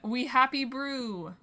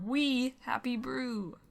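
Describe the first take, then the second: First: No word gets extra stress. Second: The word we is stressed.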